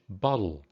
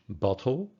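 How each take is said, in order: First: The middle consonant is a d-like tap. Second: The middle consonant is a clear t. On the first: "American English" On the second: "British English"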